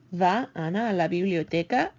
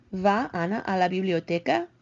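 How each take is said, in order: First: "biblioteca" rising again at the end; rising question tune. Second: "biblioteca" rising at the end, verb first; rising question tune. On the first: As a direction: repeat it, climbing on "biblioteca". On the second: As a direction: let the voice climb on "biblioteca". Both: Shown as a demonstration. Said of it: "You can hear how my voice goes there".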